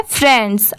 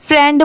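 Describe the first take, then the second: First: "फ्रेंड्स" with the final s sounded; correct pronunciation. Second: "फ्रेंड" stopped on d, without the final s; wrong pronunciation. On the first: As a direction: end "फ्रेंड्स" on a clear s. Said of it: "यहाँ पर last में एस दिया". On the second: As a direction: drop the s and end "फ्रेंड" on d. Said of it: "सिर्फ फ्रेंड पढ़ेंगे तो ये wrong होगा". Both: Shown as a demonstration.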